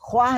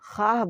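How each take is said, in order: First: A 'w' sound follows the 'kh' sound. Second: No 'w' sound follows the 'kh' sound. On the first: The speaker calls it wrong. "ख्वाह नहीं बोलते" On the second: The speaker calls it right. "खाह बोलते हैं"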